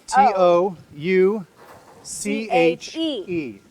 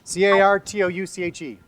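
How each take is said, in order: First: The letters are spelled out slowly. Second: The letters are spelled out fast.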